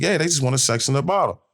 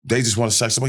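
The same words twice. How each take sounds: First: "Yeah" higher, settling down on "bottle"; confirmation. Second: BOTTLE lifted as a question at the end. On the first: Cousin answering the question, confirming. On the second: Checking the cousin's offer, questioning. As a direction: ask it, with "bottle" rising. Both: Retold or imitated. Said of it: "He said".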